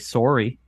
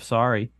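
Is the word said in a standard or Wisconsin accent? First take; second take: Wisconsin; standard. First: It is said in a Wisconsin accent. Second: It is said in a standard accent. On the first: "I say in a Wisconsin accent" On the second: "instead of"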